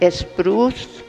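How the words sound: It is said with a Mexican Spanish accent.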